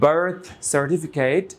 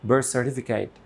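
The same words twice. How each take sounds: First: The th sound is kept before the s. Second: The th sound merges into the s. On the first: "assimilation ছাড়া" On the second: "assimilation দিয়ে"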